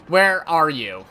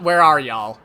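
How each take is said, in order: First: Loud call, "Where" leaned on a bit more; calling out again. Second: Loud call into the void for "y'all". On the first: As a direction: shout "Where are you?" a touch less than before. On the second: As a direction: shout "Where are y'all?" as if searching a crowd. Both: Pretend. Calling out to future partner.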